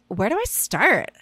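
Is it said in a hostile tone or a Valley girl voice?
Valley girl. It is said in a put-on Valley girl voice.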